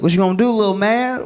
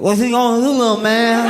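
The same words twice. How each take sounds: First: It is said in a plain voice. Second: It is said in a slurred, drunken voice.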